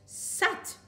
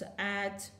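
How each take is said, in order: First: The sounds are joined together without a pause. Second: The sounds are split apart with a pause. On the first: "Put together and read faster" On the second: "Join together and read at once"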